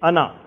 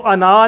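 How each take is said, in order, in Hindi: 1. अंतिम स्वर छोटा रहता है। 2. अंतिम स्वर लंबा खिंचता है। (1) "ये अलिफ नहीं पढ़ा जाता, सिर्फ ज़बर पढ़ी जाती है" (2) "इसको अना नहीं पढ़ेंगे, लंबा नहीं करना इसको कभी भी।"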